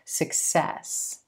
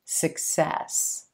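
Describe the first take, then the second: First: The stress is on the second syllable. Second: The same.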